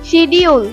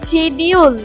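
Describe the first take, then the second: No difference in how they are said.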